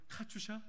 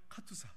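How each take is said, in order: First: The last syllable is pronounced 'sha'. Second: The last syllable is pronounced 'sa'. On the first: This is how the audience says it. "여러분들의 발음으로는" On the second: This is the original pronunciation. "원래 발음은"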